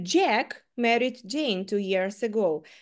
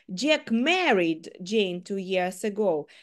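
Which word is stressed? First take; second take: Jack; married. First: The stress is on the word Jack. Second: The stress is on the word married. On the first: It was Jack, not someone else, who married Jane. "в першому випадку я саме зробила наголос на Джеку" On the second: Jack did marry Jane. "Джек одружився на Джейн 2 роки назад"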